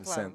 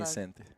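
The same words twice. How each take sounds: First: It is said in a European Portuguese accent. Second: It is said in a southern Brazilian accent. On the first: "Em português de Portugal seria mais um Vicente" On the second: "no sul do Brasil se fala Vicente"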